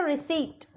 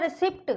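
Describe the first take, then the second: First: रिसीट said as ri-seet, P silent; रिसीट with long ee and plain t; correct pronunciation demo. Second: रिसिप्ट said with the P sounded; रिसिप्ट ending in a heard pt; mispronunciation demo. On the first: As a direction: say रिसीट without any P. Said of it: "लेकिन इसको हम बोलेंगे". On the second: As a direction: read the written P in रिसिप्ट. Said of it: "पी का word आ रहा है". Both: Shown as a demonstration.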